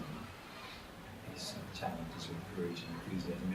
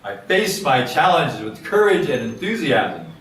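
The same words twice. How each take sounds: First: It is spoken in a soft, quiet voice. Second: It is spoken in a strong, loud voice. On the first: It plants the statement in the subconscious mind. "You get softer" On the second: It wakes up the mind and focuses attention. "you start out with a strong voice"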